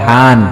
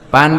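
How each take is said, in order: First: The word begins with an H sound. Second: The word begins with a P sound.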